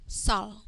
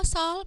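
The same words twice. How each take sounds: First: "sol" with a short vowel; shortened vowel. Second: "sol" with the vowel held longer; unshortened vowel. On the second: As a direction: read "sol" with a full, drawn-out o. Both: Shown as a demonstration. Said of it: "end with dot moi".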